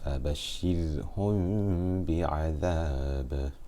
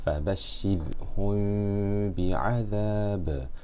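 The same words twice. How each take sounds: First: The m is hidden, lips barely touching, nasalized. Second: The m is hidden, lips barely touching, nasalized.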